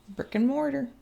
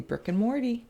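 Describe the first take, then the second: First: The last word ends with an 'er' sound. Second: The last word ends with an 'ee' sound.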